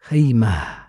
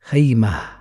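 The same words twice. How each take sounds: First: The word ends with a soft h sound. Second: The same.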